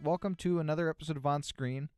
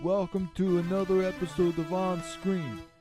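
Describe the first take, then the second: First: It is said in his normal voice. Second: It is said in a Rocky impression.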